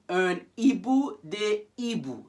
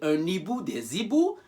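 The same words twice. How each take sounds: First: The words are kept apart before hibou. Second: The final sounds link into hibou. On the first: The speaker calls it right. "That's why I said un, un hibou des hiboux. So you keep them apart" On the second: The speaker calls it wrong. "That's why I didn't say un hibou des hiboux"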